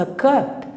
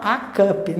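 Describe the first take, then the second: First: "a cup" with "a" reduced to a weak "uh"; schwa article. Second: "a cup" with "a" as a full open "ah"; student's mispronunciation. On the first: Teacher showing how the article changes in a phrase, schwa in "a cup". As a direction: glide over "a" into "cup" with a tiny "uh". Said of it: "ele muda". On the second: Teacher imitating what the student wants to say, "ah" in "a cup". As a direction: give the article in "a cup" a strong "ah". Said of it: "o aluno quer falar a cup". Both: Shown as a demonstration.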